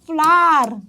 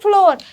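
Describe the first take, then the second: First: The vowel sounds like the 'ar' in far. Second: The vowel sounds like the 'or' in floor. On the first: The speaker calls it right. "Actually it is ફ્લાર right" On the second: The speaker calls it wrong. "It is not ફ્લોર"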